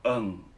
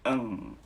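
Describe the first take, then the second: First: The hum resonates in another place, not nasal. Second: The hum resonates forward in the nasal bone. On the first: The speaker calls it wrong. "Tapi bukan eng di sini" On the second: The speaker calls it right. "Ucapkan bunyi eng seperti ini"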